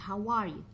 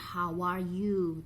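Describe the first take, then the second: First: The word 'you' has a short reduced vowel. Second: The word 'you' has a long full vowel. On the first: The speaker calls it right. "tapi how are you?" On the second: The speaker calls it wrong. "Bukannya how are you"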